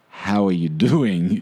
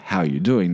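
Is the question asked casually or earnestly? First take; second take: earnestly; casually. First: It is asked as a sincere, weighty question. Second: It is asked as a casual greeting.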